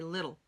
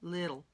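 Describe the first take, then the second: First: The middle t is a soft quick flap. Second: The middle t is a soft quick flap.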